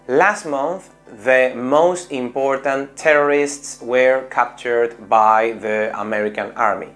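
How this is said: It has a Spanish intonation with separate, full words. The speaker calls it wrong. "buena pronunciación, pero entonación española"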